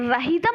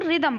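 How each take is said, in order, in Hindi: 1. r के बाद h की आवाज़ आती है। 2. r के बाद h की आवाज़ नहीं आती। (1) "यहाँ पे रहीदम नहीं पढ़ते हो" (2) "रिदम पढ़ते हो"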